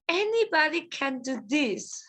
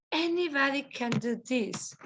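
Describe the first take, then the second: First: Said in the usual way. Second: "Anybody" stressed, a bit softer; model repeat. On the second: Shown as a demonstration. Teacher models the line for the class, stressing "Anybody".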